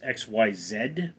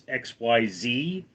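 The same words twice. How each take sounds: First: The letters are said in non-American English. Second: The letters are said in American English. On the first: "in other Englishes it's" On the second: "in American English it's"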